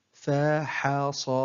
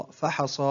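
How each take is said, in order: First: Very slow, each syllable drawn out separately; broken into syllables. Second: Said in the usual way. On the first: Shown as a demonstration. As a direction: sound out the word syllable by syllable. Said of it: "تقطع الكلمة إلى حروف". (تقطيع الكلمة ببطء شديد مقطعًا مقطعًا) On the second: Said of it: "تقطع الكلمة".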